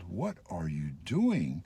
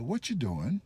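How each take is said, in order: First: Each word is said separately, sounding angry. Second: The words run together, sounding friendly.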